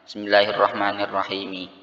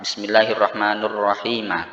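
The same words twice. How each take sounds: First: Both names end with an i vowel. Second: The names end with u, then a. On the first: "Kasrotani, kasrah semuanya" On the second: "dhammah kemudian fathah"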